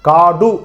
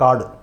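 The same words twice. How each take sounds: First: The final vowel is said fully and clearly. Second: The final vowel is short and reduced. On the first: The speaker calls it wrong. "அந்த டூ டூன்றத காடு சொல்லுமா? சொல்ல மாட்டேன்" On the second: The speaker calls it right. "அப்ப அதனுடைய ஒலி குறையுது"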